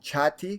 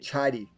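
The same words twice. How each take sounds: First: The middle consonant is a clear T sound. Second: The middle consonant sounds almost like a D. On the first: "which means that this would have a T sound" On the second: "It's almost like a, a D sound"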